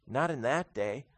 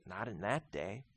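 First: Said in the usual way. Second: Much softer, nearly under the breath; soft first take. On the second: Real, not acted. Preacher answering his own question, much softer. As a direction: drop it low and intimate.

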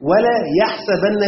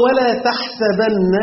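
First: يحسبن said slowly with a clear ya sound, yaḥsabanna; teacher stressing the ya of يحسبن; reading with ya. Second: تحسبن said slowly with a clear ta sound, taḥsabanna; teacher contrasting the ta in تحسبن; reading with ta. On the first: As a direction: spell out the ya in يحسبن, slow and high. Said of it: "بالياء". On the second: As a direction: drag out تحسبن, hitting the ta, pitched higher. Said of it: "في قراءة". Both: Shown as a demonstration.

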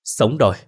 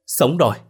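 First: Glad cry of relief; overjoyed. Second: Overjoyed, higher. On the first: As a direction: blurt it out, thrilled to be alive. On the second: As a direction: pitch jumps up on sống rồi, elated. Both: A narrator's reading. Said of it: "vui mừng mà ôm chầm".

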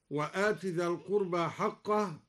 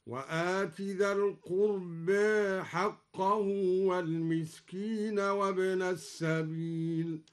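First: Said in the usual way. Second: Slow chant, القربى ending between a and e; taqlil on القربى. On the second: Shown as a demonstration. Teacher chants al-Duri's reading, القربى toward e. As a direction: recite القربى as alqurbe. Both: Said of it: "قلل الدوري القربى هكذا".

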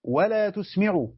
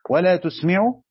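First: Each word stretched out slowly; slow drawn-out "ولا تسمع", spelling out the reading. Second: "ولا تسمع" said loud with a rising end; loud rising "ولا تسمع", stressing who is spoken to; loud emphasis. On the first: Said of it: "القراءة الأخرى". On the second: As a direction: hit "ولا تسمع" hard to point at the addressee. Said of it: "أين الفاعل؟". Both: Shown as a demonstration.

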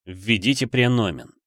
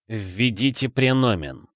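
First: Flat metallic robot voice; monotone robot voice. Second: Flat metallic robot voice, slow; monotone robot voice. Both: A narrator's reading. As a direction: speak like a cold machine. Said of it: "монотонный металлический голос".

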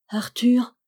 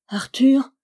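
First: Sung, voiced, lilting higher name; sung, let the name ring as a tune; softly sung call. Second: Breathless whispered name, pitched up; whispered call. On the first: Marie sings his name under the wall, voiced and higher. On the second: Acted. Marie calls her lover beneath the tower, whispering. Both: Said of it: "elle chantait parmi ses larmes".

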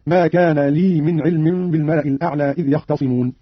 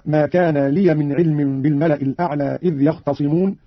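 First: "لي" as long li, without -ya; vowelless ending on لي. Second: Said in the usual way. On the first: Shown as a demonstration. Teacher demonstrates Qalun's reading, "لي" as plain lii. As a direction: run "لي" into "من" as lii min. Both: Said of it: "بإسكان اللام من لي وصلا".

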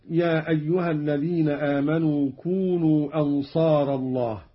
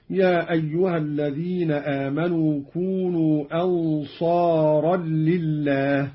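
First: Said in the usual way. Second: "أنصارا لله" as "ansaaran-lillaah", merged into double l; nunated ra. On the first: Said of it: "بتنوين الراء". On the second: Shown as a demonstration. Teacher demonstrating Qalun, "أنصارا لله" as ansaaral-lillaah. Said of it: "بتنوين الراء وزيادة لام".

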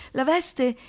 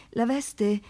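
No difference in how they are said.

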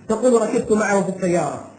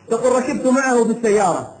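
Both takes have the same delivery.

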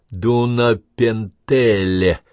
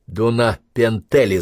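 First: Slow, syllable-by-syllable reading. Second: Slow repeat. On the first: Officer reading a Hungarian town name off the map, slowly. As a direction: spell the strange name out slowly. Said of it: "прочёл он по слогам". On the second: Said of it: "Дунапентеле, значит". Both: A narrator's reading.

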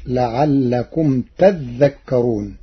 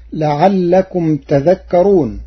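First: تذكرون with a doubled dhal, said slowly; Warsh reading. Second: Said in the usual way. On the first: Shown as a demonstration. Teacher demonstrates Warsh's تذكرون with a doubled dhal. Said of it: "بتشديد الذال". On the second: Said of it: "قرأ ورش كلمة تذكرون".

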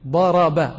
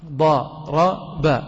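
First: ضرب said daraba, all three letters with fatha; active form daraba. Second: ضرب said duriba, damma on the first letter, kasra on the second, drawn out very slowly; passive form duriba. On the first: Teacher showing students the active verb, pronounced daraba. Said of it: "الضاد مفتوحة والراء مفتوحة والباء مفتوحة". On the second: Teacher slowly shows the class the passive verb duriba. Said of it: "الحرف الأول ماذا فعلنا فيه؟ وضعنا عليه ضمة". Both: Shown as a demonstration.

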